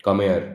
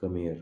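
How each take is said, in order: First: Loud, sharp angry call; angry high tone. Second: Soft, gentle asking tone; pleading, polite. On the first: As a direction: snap it like a scolding. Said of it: "तो लगा कि एकदम गुस्से में बोल रहा हूँ". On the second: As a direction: ask nicely, like saying please. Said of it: "एक प्लीज वे में बोल रहा हूँ". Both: Shown as a demonstration.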